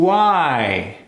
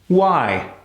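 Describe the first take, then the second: First: The W sound is held long. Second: The W sound is very short. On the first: "Let's combine the ooh into the I" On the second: "Now let's cut it even shorter"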